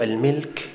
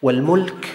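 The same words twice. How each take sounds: First: الملك pronounced "al-milk"; kasra on the mim. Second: والملك pronounced "wal-mulk"; damma on the mim. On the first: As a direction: give الملك a short i after the mim. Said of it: "بكسر الميم". (الملك بكسر الميم) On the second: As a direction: give والملك a short u after the mim. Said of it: "بضم الميم". (والملك بضم الميم) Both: Shown as a demonstration.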